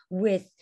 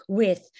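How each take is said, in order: The two takes are said the same way.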